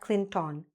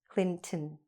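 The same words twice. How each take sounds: First: The last syllable has a full 'on' vowel. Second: The last syllable has a weak, reduced vowel. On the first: The speaker calls it wrong. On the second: The speaker calls it right.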